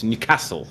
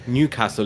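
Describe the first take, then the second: First: The stress is on the second syllable. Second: The stress is on the first syllable. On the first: The speaker calls it right. "the proper way of saying it is to put the emphasis on the second syllable" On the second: The speaker calls it wrong. "It's not Newcastle"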